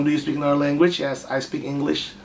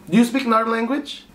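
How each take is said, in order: First: Javanese English. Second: Said in the usual way. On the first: Shown as a demonstration. Streamer mocks his own English with a Javanese accent. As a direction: read the English like a Javanese speaker. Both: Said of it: "English orang Jawa".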